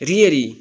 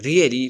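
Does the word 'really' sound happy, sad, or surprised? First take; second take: surprised; sad. First: It is said with a surprised, disbelieving tone. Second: It is said with a sad, sympathetic tone. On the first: The listener cannot believe what they heard. "surprise حیران تیارا پا really I don't believe you" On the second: The listener is sorry about bad news. "sad news پارا really but how"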